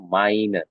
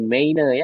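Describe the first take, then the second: First: The vowel is said as 'ai'. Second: The vowel is said as separate 'e-i'. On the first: The speaker calls it right. "dibacanya jadinya A I" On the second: The speaker calls it wrong. "jangan jadi meine"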